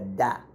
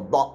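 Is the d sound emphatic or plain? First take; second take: plain; emphatic. First: The d is plain and light. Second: The d is strong and emphatic. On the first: The speaker calls it wrong. "not a da" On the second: The speaker calls it right. "I'm saying a strong da"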